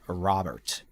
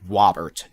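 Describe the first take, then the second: First: The first sound is a clear R sound. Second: The first sound is a W, not an R. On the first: "instead of" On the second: "I would say ours is W"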